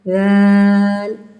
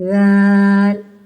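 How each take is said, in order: No difference in how they are said.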